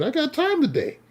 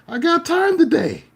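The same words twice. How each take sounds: First: Much higher, sing-song I got time today; gleeful taunt. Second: I got time today yelled much higher, louder and slow; screamed dare. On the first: To the road-rage driver, a sing-song taunting dare. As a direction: dare him with a grin. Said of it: "So I told him". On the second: Out the car window at the driver, a slow yelled dare. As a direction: bellow time today at him. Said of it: "I screamed out the window". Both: Retold or imitated.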